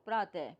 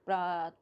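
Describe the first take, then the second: First: प्रातः ending in an audible "e" sound; visarga ending. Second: Said in the usual way. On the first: Shown as a demonstration. Teacher showing students how प्रातः differs, visarga pronounced "e". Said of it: "ए pronounce करते हैं". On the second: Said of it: "प्रात और प्रातः में क्या difference है".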